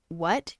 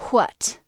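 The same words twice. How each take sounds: First: Said in the usual way. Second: "what" with an exaggerated h first, hwat; Midwestern breathy wh. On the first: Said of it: "instead of saying "what". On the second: Shown as a demonstration. Sub's preferred accent shown to viewers, "what" said hwat. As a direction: puff out "what" as hwat, louder. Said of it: "you said "what".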